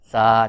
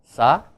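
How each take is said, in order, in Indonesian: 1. Vokalnya diucapkan panjang. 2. Vokalnya diucapkan pendek.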